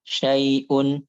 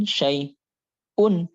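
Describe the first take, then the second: First: SYAI'UN joined, with a short clean catch before "un"; measured hamzah. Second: SYAI'UN slow, long gap, then forced "un"; exaggerated hamzah. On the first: Teacher models the proper way, measured hamzah in SYAI'UN. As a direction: say "Syai'un" without lingering on the hamzah. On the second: Teacher warns against this reading, overdone hamzah in SYAI'UN. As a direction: split "syai'un" and shove out the "un". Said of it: "jangan syai'un gitu". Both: Shown as a demonstration.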